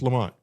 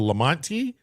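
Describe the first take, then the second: First: The name ends on the final consonant. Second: The name ends with an added vowel sound. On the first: The speaker calls it right. "no, it's just Lamont" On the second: The speaker calls it wrong. "everybody pronounces the E at the end, but you're not supposed to"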